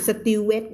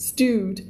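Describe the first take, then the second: First: "stewed" broken up as sa-tiu-wet; wrong pronunciation. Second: "stewed" as one syllable, stood with a t; correct pronunciation. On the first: Teacher showing what not to say, "stewed" in extra syllables. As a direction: add extra syllables to "stewed", Thai-style. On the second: Teacher modelling for learners, one-syllable "stewed". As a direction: say "stewed" in one clean beat. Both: Shown as a demonstration. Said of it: "ไม่อ่าน stewed นะจ๊ะ ไม่เอานะ".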